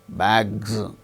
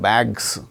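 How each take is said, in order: First: The word ends with a buzzing z sound. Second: The word ends with a hissing s sound. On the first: The speaker calls it right. "It is a voiced sound" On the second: The speaker calls it wrong. "not bags"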